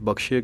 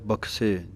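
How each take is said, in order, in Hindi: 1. 'bakh' के बाद का व्यंजन 'sh' की ध्वनि है। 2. 'bakh' के बाद का व्यंजन सादा 's' की ध्वनि है। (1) "ਕਈ ਬਖਸ਼ੇ ਕਹਿ ਦਿੰਦੇ ਹਨ" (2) "ਸੱਸੇ ਦੇ ਪੈਰ ਦੇ ਵਿੱਚ ਬਿੰਦੀ ਨਹੀਂ ਲਾਉਣੀ"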